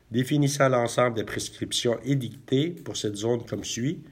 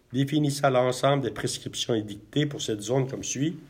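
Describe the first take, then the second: The two takes are said the same way.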